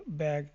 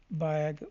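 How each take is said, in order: First: Said in the usual way. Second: بیگ stretched to show its opening "ba"; sounded-out word. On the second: Shown as a demonstration. Teacher showing the B sound, بیگ sounded out. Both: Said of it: "با کی آوازیں ہم نے دیکھی".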